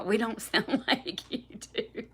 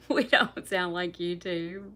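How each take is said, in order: First: Words broken by a laugh; giggling while answering the chat. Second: Slow, leaning on "We"; deliberate slow "We don't sound like you do"; stress on we. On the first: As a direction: laugh through the line. Laughing reply to a comment. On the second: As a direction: say it slowly and hit "We". Repeats it deliberately. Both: Real, not acted.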